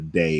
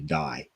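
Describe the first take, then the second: First: The syllable rhymes with 'say'. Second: The syllable rhymes with 'eye'. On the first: The speaker calls it wrong. "It wouldn't be a day" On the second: The speaker calls it right. "it would be Dai, like Daihatsu"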